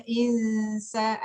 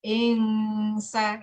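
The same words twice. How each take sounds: First: Insa with a clear n, drawn slowly; insa, n not ng; insa plain n. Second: Ingsa said with an ng before the s; ng instead of n. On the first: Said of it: "ada yang bacanya insa". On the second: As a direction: turn the n of insa into ng. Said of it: "ada yang bacanya". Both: Shown as a demonstration.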